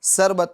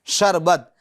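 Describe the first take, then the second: First: سربت with a plain s instead of sh; wrong sarbat. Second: شربت with a clear sh at the start; correct sharbat. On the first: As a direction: show the mistake, سربت with s. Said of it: "اب اگر کوئی بولے سربت". (شربت کی جگہ غلط سربت) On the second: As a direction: say شربت with the sh sound. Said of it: "شربت ہوتا ہے". (شربت صحیح شین کے ساتھ) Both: Shown as a demonstration.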